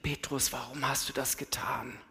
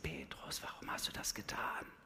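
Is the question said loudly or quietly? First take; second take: loudly; quietly. First: The question is said at normal or loud volume. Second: The question is said very quietly and softly.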